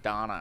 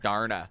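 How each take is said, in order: First: The name is said without an R sound. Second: The name is said with an R sound. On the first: This is how other people say the name. The speaker calls it wrong. "everyone's like Donna, Donna, Donna in their accent" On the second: This is how the speaker's own group says the name. The speaker calls it right. "you have to say it with an R ... That's how I say it"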